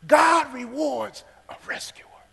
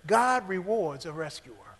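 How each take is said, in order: First: Whisper. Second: Said in the usual way. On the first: Shown as a demonstration. Preacher repeating his point to the congregation, whispered slowly. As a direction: repeat it in a slow breathy whisper.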